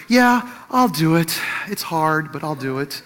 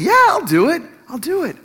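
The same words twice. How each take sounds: First: Timid, tentative. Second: High, bouncy, joyful yes; eager, joyful. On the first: Husband agrees to make her feel bad, timid and tentative. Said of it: "say it kind of timidly, like, tentatively". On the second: Husband offers to fetch son, eager and joyful. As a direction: jump at the chance, pitch leaping up. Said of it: "said it eagerly, joyfully". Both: Shown as a demonstration.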